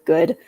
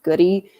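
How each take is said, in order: First: The name is said with one syllable. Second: The name is said with two syllables. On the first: This is how it is said in the United States. "in the United States of America, nobody pronounces it that way. It's always good" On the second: This is how it is said in England. "like England that is pronounced Goody"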